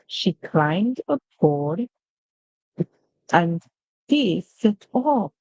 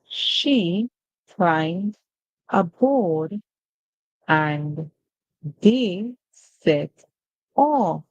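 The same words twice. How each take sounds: First: The words are grouped together into smooth phrases. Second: Each word is read separately, one at a time. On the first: "Now we're going to be reading in phrases" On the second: "we just read using word by word"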